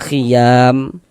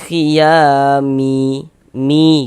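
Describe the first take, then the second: First: The word ends on a bare final m. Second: The final m is followed by a vowel. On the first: The speaker calls it right. "Kita baca khiyam" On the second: The speaker calls it wrong. "Jangan dibaca khiyami mi gitu"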